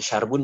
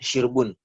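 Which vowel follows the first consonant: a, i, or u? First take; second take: a; i. First: The first vowel is a. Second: The first vowel is i. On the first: The speaker calls it wrong. "Bukan syarbun" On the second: The speaker calls it right. "Dibacanya syirbi, syirbiha, syirbun"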